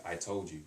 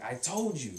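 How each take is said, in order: First: Said in the usual way. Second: Higher and louder, a mildly annoyed I told you; exasperated told you. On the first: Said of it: "it changes". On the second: Shown as a demonstration. Teacher showing the student the told-you-so tone ma adds. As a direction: let some irritation into it. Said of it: "But when you add the ma on the end".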